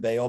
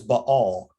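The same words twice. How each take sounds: First: The name is said in its common form. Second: The name is said in its original form. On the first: "the pronunciation that most people are familiar with" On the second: "the proper pronunciation for this god's name"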